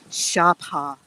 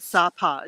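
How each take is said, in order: First: The name is said with a Vietnamese-style pronunciation. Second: The name is said with an English-style pronunciation. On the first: "the Vietnamese pronunciation is Sapa" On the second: "we call it Sapa"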